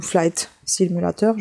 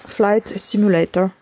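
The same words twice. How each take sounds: First: "Simulator" read as French "simulateur"; French-style Simulator. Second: "Simulator" attempted the English way, French-accented; English-style Simulator. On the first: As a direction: end "Simulator" in a French -teur, unsure. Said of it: "je sais pas". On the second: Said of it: "Ou Flight Simulator, je sais pas". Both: Real, not acted.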